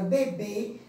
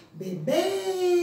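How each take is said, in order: First: Said in the usual way. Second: "bebê" called out, final "bê" long and high; chamando pela tônica. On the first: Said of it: "qual é a sílaba tônica". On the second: Shown as a demonstration. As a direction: hold the last syllable of "bebê" as if calling it. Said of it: "Vamos chamá-la". ("bebê" chamado, com o "bê" final esticado)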